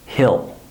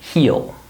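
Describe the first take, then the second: First: The vowel is a short i sound. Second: The vowel is a full, long ee sound. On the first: The word is said at normal speed in a sentence. "When I'm speaking normally, I pronounce this contraction as hill... I don't use an E sound. I use an I sound" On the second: The word is said on its own. "If I say this word by itself... Notice how I say the full E sound"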